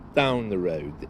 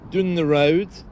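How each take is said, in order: First: The first word has an 'ow' vowel, like 'town'. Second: The first word has a short 'uh' vowel, like 'dun'. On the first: "Rather than saying the word down" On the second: "they would say dun"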